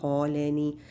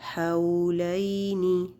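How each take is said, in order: First: The first vowel is slightly rounded. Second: The first vowel is kept open. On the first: The speaker calls it wrong. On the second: The speaker calls it right.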